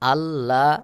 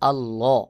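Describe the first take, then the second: First: The L sound is thin and light. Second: The L sound is full and heavy. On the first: The speaker calls it wrong. "এটা বললে সহি উচ্চারণ হবে না" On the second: The speaker calls it right. "এখানে বলতে হবে আল্লাহ"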